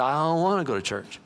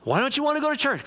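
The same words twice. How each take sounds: First: Reluctant husband. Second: High-pitched imitation of a wife; questioning wife. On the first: Acted. Husband answers wife about church, reluctant refusal. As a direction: lightly play a man refusing to get up. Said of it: "He said". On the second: Wife questions husband staying in bed, insistent questioning. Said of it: "his wife came and said".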